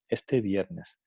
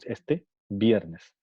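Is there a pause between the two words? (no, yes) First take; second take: no; yes. First: The two words run together without a pause. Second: There is a pause between the two words. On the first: The speaker calls it right. "notamos que no hay pausa" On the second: The speaker calls it wrong. "No decimos"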